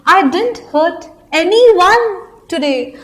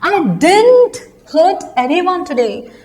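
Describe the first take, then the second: First: The stress is on "anyone". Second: The stress is on "didn't".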